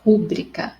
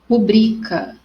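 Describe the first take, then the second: First: The stress falls on the syllable ru. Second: The stress falls on the syllable bri. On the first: The speaker calls it wrong. "e não rúbrica" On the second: The speaker calls it right. "em rubrica é no bri"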